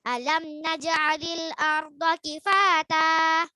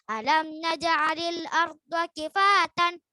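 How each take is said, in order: First: The last word ends in a long vowel. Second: The last word ends in an n sound. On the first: The speaker calls it right. "maka dibaca panjang dua harokat atau satu alif" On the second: The speaker calls it wrong. "Jadi bukan ... Salah"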